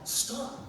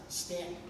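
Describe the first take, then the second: First: The first vowel sounds like 'aw'. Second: The first vowel sounds like the one in 'and'. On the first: The speaker calls it wrong. "I pronounced it as it's spelled with an aw" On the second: The speaker calls it right. "correct pronunciation with the and sound"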